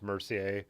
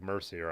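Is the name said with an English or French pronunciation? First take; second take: French; English. First: The name is said with a French pronunciation. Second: The name is said with an English pronunciation. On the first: "with the French pronunciation" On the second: "it looks like"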